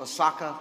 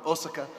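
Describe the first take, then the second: First: "Osaka" with the stress on SA; stress on second syllable. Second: "Osaka" with the stress on the first O; Japanese pronunciation. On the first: Pastor naming a stop on his trip, "Osaka" stressed on the middle syllable. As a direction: say "Osaka" as oh-SAH-ka. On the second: Pastor showing how Japan says it, "Osaka" stressed on the first syllable. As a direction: say "Osaka" as OH-suh-ka. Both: Shown as a demonstration. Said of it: "as they pronounce it in Japan".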